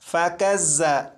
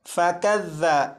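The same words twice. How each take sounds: First: The consonant has a sharp buzzing hiss. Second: The consonant is soft, without any hissing. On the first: The speaker calls it wrong. "इसे इस तरह नहीं पढ़ेंगे" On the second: The speaker calls it right. "सीटी की आवाज़ ख़त्म हो जाएगी"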